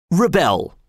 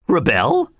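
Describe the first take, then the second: First: Higher, falling, decided; firmly. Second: Higher, rising in disbelief; startled cry. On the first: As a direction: plant the word like a decision. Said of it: "repeated Walter firmly". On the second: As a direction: echo it back, shocked. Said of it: "cried everybody". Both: A narrator's reading.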